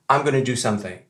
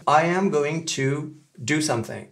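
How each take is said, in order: First: "I'm gonna do something" run together, going to merged into gonna; relaxed, quick "I'm gonna"; casual American reduction. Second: "I am going to do something" with every word separate, AM in full; full uncontracted form. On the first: Teacher showing how Americans usually say it, casually reduced. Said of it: "ils vont plutôt dire". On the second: Teacher showing learners what Americans don't say, fully enunciated. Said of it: "Ils disent pas". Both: Shown as a demonstration.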